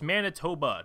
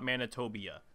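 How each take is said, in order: First: The name ends in a plain 'toba' sound. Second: The name ends with an extra 'bee-uh' sound. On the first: The speaker calls it right. "it's Manitoba" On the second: The speaker calls it wrong. "I was pronouncing that wrong"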